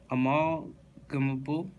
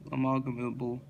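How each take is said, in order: First: "Amalgamable" stretched slowly with a rising end; drawn-out, questioning. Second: Said in the usual way. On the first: Real, not acted. Reader retrying an odd word from the list, slow and questioning. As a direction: sound out "Amalgamable" in pieces, as if unsure.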